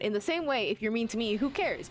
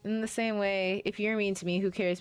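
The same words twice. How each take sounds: First: It is read in a livelier, more expressive tone. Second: It is read in a flat, plain tone. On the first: The speaker calls it right. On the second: The speaker calls it wrong.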